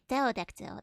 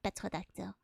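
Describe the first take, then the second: First: The word begins without a P sound. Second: The word begins with a P sound. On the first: The speaker calls it right. "That's the one" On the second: The speaker calls it wrong. "not petrodactyl"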